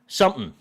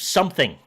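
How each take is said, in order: First: The final sound of the word is dropped. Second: The final sound of the word is fully pronounced. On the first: The speaker calls it wrong. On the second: The speaker calls it right.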